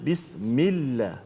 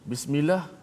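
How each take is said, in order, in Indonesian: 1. Bunyi l ditahan dan dobel. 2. Bunyi l pendek dan tunggal. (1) "ada sabdu atas lam" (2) "bukan makna yang betul"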